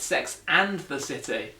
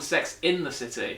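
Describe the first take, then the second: First: Slow, with "and" said in full and stressed. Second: "in" picked out in the title; stress on IN. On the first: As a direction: correct them by leaning on "and". Correcting the mistaken title. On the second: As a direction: lean on the word "in". Contrasting mistaken title with real one. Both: Shown as a demonstration.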